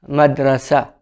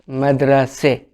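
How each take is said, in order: First: The word ends with an open 'a' vowel. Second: The word ends with a front 'e' vowel. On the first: This is the standard Arabic form. "This is in standard Arabic" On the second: This is the spoken, colloquial form. "In spoken Arabic, it will be madrase"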